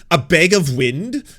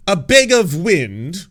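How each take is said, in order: First: Slow, louder, rising disbelief; a slow incredulous question; amused disbelief. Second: Slower, louder, rising again with more delight; an even more incredulous question; more amused disbelief. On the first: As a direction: savour the phrase like a gift. Reads the insult, amused. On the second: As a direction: lean into the word bag. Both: Real, not acted.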